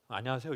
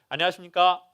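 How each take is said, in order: First: It is said in a relaxed, natural voice. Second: It is said in a formal lecturer's voice.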